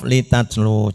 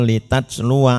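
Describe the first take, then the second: First: The word ends on a long 'u' sound. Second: The word ends with a short 'wa' sound. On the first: The reader stops after this word. "Jika wakof" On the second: The reader continues into the next word. "jika wasol"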